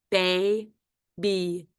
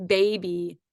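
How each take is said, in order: First: Put-on "Baby" slowly broken into bay, then bee; split into syllables. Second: Said in the usual way. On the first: Shown as a demonstration. Teacher dictating the last quiz word, split into syllables. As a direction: say "Baby" with a long gap between syllables. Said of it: "Let's spell the first syllable". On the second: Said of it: "is the word".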